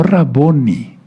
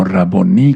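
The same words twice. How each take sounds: First: Raboni stressed on the middle syllable BO; wrong stress on BO. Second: Raboní with the accent on the last syllable; stress on final I. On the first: Preacher showing the congregation the mistake, Raboni stressed on BO. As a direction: say Raboni slowly, leaning on bo, not the final i. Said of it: "no Raboni, sino Raboní". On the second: Preacher correcting the word for the congregation, Raboní stressed on final í. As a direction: hit the final í of Raboní, not the bo. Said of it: "con acento en la I". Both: Shown as a demonstration.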